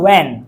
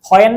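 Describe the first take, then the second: First: The word starts with a plain w sound. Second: The word starts with an h before the w. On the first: The speaker calls it right. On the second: The speaker calls it wrong. "হোয়েন না"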